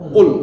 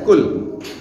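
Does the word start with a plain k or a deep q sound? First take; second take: deep q; plain k. First: It starts with a deep q sound. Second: It starts with a plain k sound. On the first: The speaker calls it right. "Beda kan?" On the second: The speaker calls it wrong. "jangan dibaca kul"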